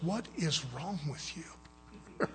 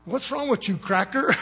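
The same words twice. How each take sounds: First: In-your-face confrontation. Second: High-pitched joking imitation, breaking into laughter; Brother Durant. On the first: Retold or imitated. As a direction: quote him confronting you up close, slowly and softly. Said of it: "gets right in my face". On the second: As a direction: playfully mimic a brother's teasing challenge. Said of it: "as Brother Durant say".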